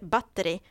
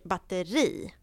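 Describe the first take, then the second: First: The stress falls before the last syllable, short i. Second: The stress falls on the last syllable, long i. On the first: The speaker calls it wrong. "man säger inte batteri" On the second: The speaker calls it right. "man säger batteri. Med långt i"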